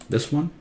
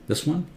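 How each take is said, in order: No difference in how they are said.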